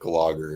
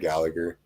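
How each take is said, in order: First: The surname is said as Glogger. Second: The surname is said as Gallagher. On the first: The speaker calls it wrong. "Don't tell me you're gonna say like Glogger or something" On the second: The speaker calls it right. "we say Gallagher"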